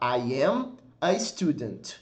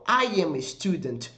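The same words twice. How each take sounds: First: The words are split into separate blocks. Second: The words run together as one connected sound. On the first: "Você pode dividir a frase em blocos" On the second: "é um som basicamente único, é uma sequência"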